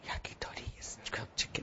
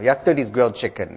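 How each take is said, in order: First: It is spoken quietly and hesitantly. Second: It is spoken loudly and clearly. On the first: The speaker is nervous. The speaker calls it wrong. "if you're nervous, sometimes you speak more quietly" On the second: The speaker is confident. The speaker calls it right. "So speak with confidence"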